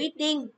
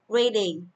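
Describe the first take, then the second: First: The stress falls on the second syllable. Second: The stress falls on the first syllable. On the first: The speaker calls it wrong. "Không đọc là reading" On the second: The speaker calls it right. "Reading thì sẽ không có trọng âm. Mình đọc là reading"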